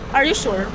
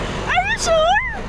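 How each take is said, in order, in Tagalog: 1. Sinabi ito sa galit na tono. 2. Sinabi ito sa masayang tono. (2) "Masaya mo na"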